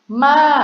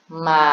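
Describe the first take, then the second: First: The pitch goes from level up to fairly high. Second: The pitch stays level at a middle height. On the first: "siang tri" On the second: "siang saman"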